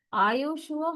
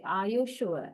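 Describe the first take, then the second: First: "sure" started high, falling then rising; doubtful fall-rise. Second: "Are you sure?" falling then rising; doubtful fall-rise. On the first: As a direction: ask in real doubt. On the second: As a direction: sound unsure, dip then lift. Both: Shown as a demonstration. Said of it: "question expressing great doubt or surprise".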